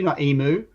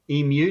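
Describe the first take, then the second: First: The word sounds like 'emo'. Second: The word does not sound like 'emo'. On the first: The speaker calls it wrong. "If you said emu, I'm like, "What is that an emo?"" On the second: The speaker calls it right. "it's actually said emu"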